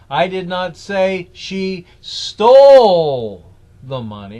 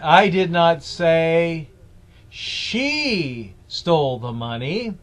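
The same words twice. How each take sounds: First: The stress is on "stole". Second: The stress is on "she".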